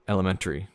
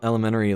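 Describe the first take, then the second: First: The T sound is clearly pronounced. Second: The T sound is dropped entirely. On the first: "unless I particularly do it" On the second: "I don't pronounce the T in elementary"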